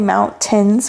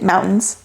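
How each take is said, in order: First: The middle T is clearly pronounced. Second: The middle T is dropped, Colorado style.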